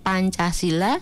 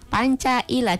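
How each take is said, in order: First: The s sound in the middle is pronounced. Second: The s sound in the middle is left out. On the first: The speaker calls it right. "harusnya Pancasila" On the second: The speaker calls it wrong. "dibaca dia Pancaila, jadi S-nya itu ditinggalkan"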